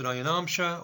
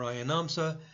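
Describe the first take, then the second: First: The word has an 'sh' sound near the end. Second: The word has a plain 's' sound near the end. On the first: "whether you pronounce it Ayanamsha" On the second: "or Ayanamsa"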